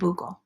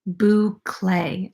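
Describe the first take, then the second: First: The word sounds like 'buckle'. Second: The word does not sound like 'buckle'. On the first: The speaker calls it wrong. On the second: The speaker calls it right.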